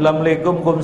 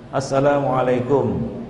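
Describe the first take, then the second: First: The greeting is slurred and clipped. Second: The greeting is pronounced fully and carefully. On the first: The greeting has no meaning. The speaker calls it wrong. "salam itu nggak ada artinya" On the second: The greeting carries its proper meaning. The speaker calls it right. "maka ucapkanlah dengan fasih"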